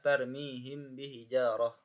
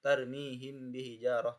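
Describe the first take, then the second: No difference in how they are said.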